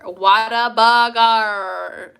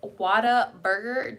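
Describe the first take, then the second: First: Whataburger stretched slow and louder, no clear R; drawn-out Whataburger. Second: Whataburger slow, with a clear R in burger. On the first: Vlogger to viewers, trying the name, slowly drawn out. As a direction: sound out Whataburger slowly, dropping the R. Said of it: "say, like". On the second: Asking Texan viewers about the R, a slow careful try. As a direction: test Whataburger, R sounded in burger. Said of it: "Do you pronounce the R in burger?". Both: Shown as a demonstration.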